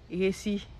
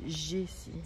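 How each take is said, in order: First: The name is said with a Spanish pronunciation. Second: The name is said with a French pronunciation. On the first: "En espagnol, ils disent Jessie. Ils disent même pas le J" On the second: "En français, ils disent Jessie"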